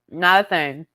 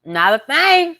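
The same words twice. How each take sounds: First: Said in the usual way. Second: "Not a thing" high and exaggerated; high mock echo. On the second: Shown as a demonstration.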